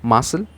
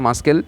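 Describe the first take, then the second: First: It is said with no k sound. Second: It is said with a k sound. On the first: The speaker calls it right. "সিটা কি আছে? Silent আছে" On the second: The speaker calls it wrong. "আমরা বলছি না মাস্কেল"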